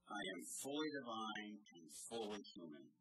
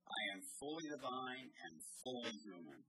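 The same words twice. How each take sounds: First: It is said in a calm, plain way. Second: It is said with a commanding, authoritative tone.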